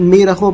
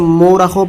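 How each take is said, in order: First: It begins with a long 'ee' sound. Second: It begins with an 'o' sound. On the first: "बहुत से लोग इसे मीरखों पढ़ते हैं" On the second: "बहुत से लोग इसे मोरखों पढ़ते हैं"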